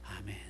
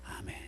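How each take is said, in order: The two takes are said the same way.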